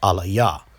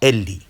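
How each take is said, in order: First: The word is said with three syllables. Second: The word is said with two syllables. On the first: This reading has no ancient transliterations behind it. The speaker calls it wrong. "Proponents of Lashawan Kodash would say that that word is pronounced Alaya" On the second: This reading is backed by ancient transliterations. The speaker calls it right. "We would say that word, meaning my God, is pronounced Eli"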